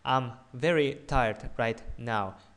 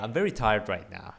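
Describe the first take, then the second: First: The words are separated and sound choppy. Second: The words are blended smoothly into each other. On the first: The speaker calls it wrong. "it sounds very choppy" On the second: The speaker calls it right. "blend the sounds together"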